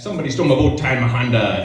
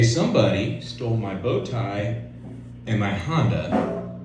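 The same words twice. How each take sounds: First: The sentence is rushed out very fast. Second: The sentence is said at a normal pace.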